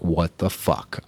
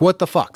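First: Low, slow, soft what the fuck; deflated disbelief. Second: Shocked outburst. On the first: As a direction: let it sink out of you, crushed by the number. Steps on scale, dismayed. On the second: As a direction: blurt it out in shocked disbelief at the scale. Scale goes up, shocked. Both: Retold or imitated.

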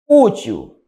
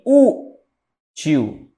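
First: Said in the usual way. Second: "útil" split in two, a long stressed ú, pause, then til; syllable-by-syllable demo. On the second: Shown as a demonstration. Teacher showing útil is paroxytone, slowly split by syllable. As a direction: hold the ú of "útil" before finishing. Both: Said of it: "Eu tenho uma paroxítona".

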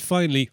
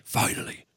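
First: Said in the usual way. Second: Whispered aside for emphasis; hushed repeat. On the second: Real, not acted. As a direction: drop to a whispered "finally". Repeats word for emphasis in recap.

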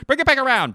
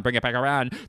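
First: Very high, loud naval yell; hammed-up captain screaming an order; frantic movie impression. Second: Movie crew impression. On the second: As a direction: repeat it back in a near-normal voice. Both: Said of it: "here's my impression of".

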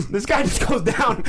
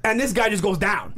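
First: Slow, laughing repeat of the punchline; laughing emphasis. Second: Said in the usual way. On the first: Real, not acted. Retelling the knockout to a friend, laughing. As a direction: relish it through laughter.

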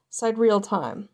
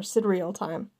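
First: "sidereal" starting like "side", sy-DEER-ee-al style; "sidereal" with a long i up front; long-i pronunciation. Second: "sidereal" starting like "sid", with a short i; "sidereal" with a short i up front; short-i pronunciation. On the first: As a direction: say the first syllable of "sidereal" as "sigh". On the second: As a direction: say the first syllable of "sidereal" as in "Sidney". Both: Shown as a demonstration. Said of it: "or sidereal time".

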